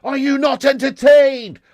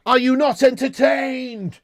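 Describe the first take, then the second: First: Slow, higher, louder Gladiator shout; Maximus Gladiator shout. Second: Slow, drawn-out mock Maximus challenge, higher; a light Gladiator impression, slowed right down; Maximus Gladiator line. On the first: Retold or imitated. Streamer bored by United, shouting as mock Maximus. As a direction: bellow it at the arena like Maximus. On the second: Streamer mocking a boring United half, slow mock Maximus. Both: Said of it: "I'm actually not Maximus Decimus Ten Hagius".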